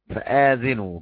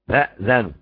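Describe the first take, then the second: First: A long 'aa' vowel follows the glottal stop. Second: The glottal stop carries no vowel at all. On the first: Inform those behind you. "بالمد" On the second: Be informed yourselves. "بهمزة ساكنة مع فتح الذال"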